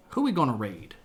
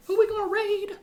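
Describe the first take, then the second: First: Said in the usual way. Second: Much higher, playful squeak; silly high-pitched question; high squeaky repeat. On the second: Pretend. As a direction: ask it again in a tiny high voice.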